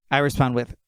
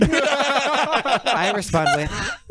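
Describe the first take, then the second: First: Said in the usual way. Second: Words broken by laughter; giggling through it; laughing. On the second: Real, not acted. Reading a funny text exchange.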